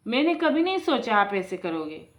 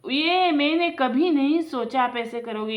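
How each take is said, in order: First: Said in the usual way. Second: Repeated higher and louder, stung; hurt, louder reproach. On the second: Acted. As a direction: say it again, hurt and raised. Brother repeats the reproach harder.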